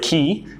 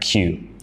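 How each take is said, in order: First: The letter name is said like 'kee'. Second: The letter name is said like 'kyoo'. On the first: The speaker calls it wrong. "Here in Indonesia, you pronounce it ki" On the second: The speaker calls it right. "in English, we want to make sure we pronounce this correctly"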